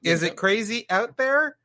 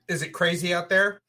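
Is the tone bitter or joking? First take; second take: joking; bitter. First: It is said in a light, joking tone. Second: It is said in a bitter, resentful tone.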